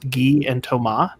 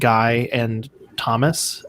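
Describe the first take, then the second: First: The names are said with French sounds. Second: The names are said with English sounds. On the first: "I've heard them pronounced Guy and Thomas" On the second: "their names are spelled Guy and Thomas"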